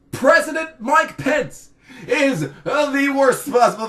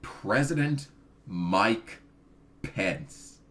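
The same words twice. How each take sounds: First: Shouted warning. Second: Slow build, the last name dropped to a hushed breath; dramatic hush. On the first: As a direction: yell it out like a doom siren. Shouted dread of Pence. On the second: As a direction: reveal it slowly like a horror, fading out. Dreaded name revealed. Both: Acted.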